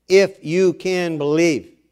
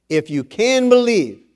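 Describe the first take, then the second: First: "If you can believe" slowed down, each word weighed; slow emphatic quote. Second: Said in the usual way. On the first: Shown as a demonstration. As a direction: lean on "If" to make them notice. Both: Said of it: "Notice he said".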